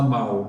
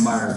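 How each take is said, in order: First: The word ends with a standard L-like sound. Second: The word ends with a countryside R sound. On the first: "o pessoal não fala mal" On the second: "fala mar"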